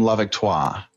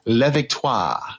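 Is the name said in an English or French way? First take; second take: English; French. First: The name is said anglicized, without the final vowel. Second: The name is said with full French pronunciation. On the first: "But I don't do the ah at the end. ... That's how I'd say it" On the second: "If I was to give it a proper French pronunciation"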